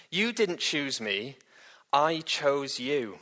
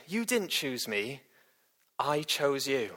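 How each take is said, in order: First: YOU and I leaned on, slow and measured; slow, with weight on "you" and "I"; stressed quote. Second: Quieter, slower, letting it sink in; soft repeat. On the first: Preacher reads Jesus' words to the congregation, slow and weighty. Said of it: "where Jesus says this". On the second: Preacher repeats the verse softly so it sinks in. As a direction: drop the voice and linger on "didn't". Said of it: "repeated to let it sink in". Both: Acted.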